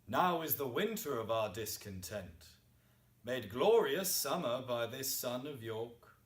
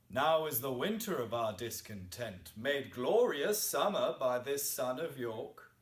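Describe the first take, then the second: First: It pauses at the end of the first line. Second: It runs on without pausing after 'discontent'.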